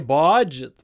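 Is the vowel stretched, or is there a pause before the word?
stretched vowel. The first vowel is stretched long and loud. The speaker calls it wrong. "we don't make the vowel big. We don't say budget"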